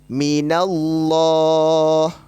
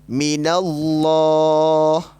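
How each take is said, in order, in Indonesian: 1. L dalam Allah itu tebal dan berat. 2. L dalam Allah itu tebal dan berat.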